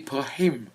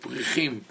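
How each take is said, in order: First: The middle consonant is a deep throat h. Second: The middle consonant is a scraped ch sound. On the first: The speaker calls it right. "it has to be prahim" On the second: The speaker calls it wrong. "The Isra- Israeli uh, Hebrew speakers would say"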